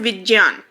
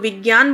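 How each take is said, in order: First: The middle consonant is said with a j sound. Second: The middle consonant is said without a j sound. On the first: This is how it used to be said. "वैसे तो इसको हम ज बोलते थे पहले" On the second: This is how it is said now. "लेकिन अब हम इसको विज्ञान बोलते हैं"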